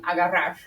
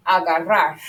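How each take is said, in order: First: Agarrar with the final R breathed out under the tongue; puff under the tongue. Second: Agarrar ending in a small puff of breath on the last R; aspirated final R. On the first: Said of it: "my puff comes, like, out under my tongue". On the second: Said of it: "aspirate the last R". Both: Shown as a demonstration.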